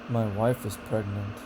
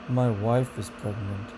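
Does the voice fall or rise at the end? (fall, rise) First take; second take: fall; fall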